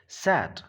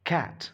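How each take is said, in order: First: The word begins with an S sound. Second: The word begins with a K sound. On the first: The speaker calls it wrong. "This is not सैट" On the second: The speaker calls it right. "This is कैट"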